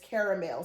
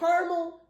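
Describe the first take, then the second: First: The word is said with three syllables. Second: The word is said with two syllables. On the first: "Caramel, C A R A M E L" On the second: "If you say caramel, C A R M E L"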